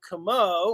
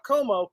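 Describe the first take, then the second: First: The name is said with a French pronunciation. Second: The name is said with an Italian pronunciation. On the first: The speaker calls it right. "We are French. Como" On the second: The speaker calls it wrong. "not Como"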